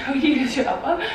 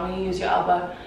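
First: Amused, quick, questioning herself; laughing question. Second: Said in the usual way. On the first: Real, not acted. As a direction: laugh at your own words.

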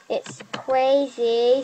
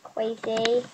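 First: "Crazy" said as "kweizy", w for r; says w for r. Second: "Crazy" with a w, "kweizy"; says w for r. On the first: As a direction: stretch "Crazy" slowly with a w sound. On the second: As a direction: swap the r in "Crazy" for w. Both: Shown as a demonstration. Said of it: "spelled like that".

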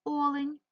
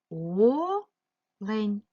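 First: Said in the usual way. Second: "Олень" with a long rising first vowel, a gap, then the rest; split into syllables. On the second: Shown as a demonstration. Teacher dividing a word for pupils, syllable by syllable. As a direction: stretch and separate both syllables of "Олень". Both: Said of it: "поділити ці слова на склади".

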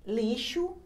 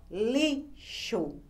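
First: Said in the usual way. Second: "lixo" very slowly as li, pause, xo; separated syllables. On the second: Shown as a demonstration. Teacher demonstrating the syllable exercise, split syllables. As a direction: break "lixo" cleanly in two. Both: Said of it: "Separe as sílabas das palavras".

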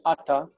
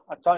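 First: "ata" accented on the opening "a"; "ata" stressed at the start; stress on first syllable. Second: "Ata" accented on the final "ta"; "Ata" with normal end stress; stress on last syllable. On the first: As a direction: flip the accent to the front of "ata". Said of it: "likes to flip that accent over". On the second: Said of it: "Ata is normally accented here". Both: Shown as a demonstration.

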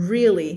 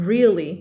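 Both takes have the same delivery.

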